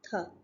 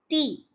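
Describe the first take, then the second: First: The t sound is soft and light. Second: The t sound is hard and forceful. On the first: "in French ... soft pronunciation" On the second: "if you pronounce T, it is a hard sound"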